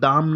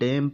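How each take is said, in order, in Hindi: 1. यह स्वर लंबा खुला 'ah' है। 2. यह स्वर छोटा सपाट 'ae' है। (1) "दाम नहीं" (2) "डैम पढ़ेंगे"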